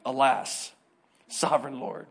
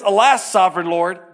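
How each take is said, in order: First: Softer, wry echo of the lament; the preacher mocking the old phrase; quiet mocking repeat. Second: Loud, solemn biblical sigh; Jeremiah's dramatic alas; mock old-fashioned lament. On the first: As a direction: echo it back, amused and low. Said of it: "Who says that?". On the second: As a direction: say it like a hammed-up lamenting prophet. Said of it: "That's a little different".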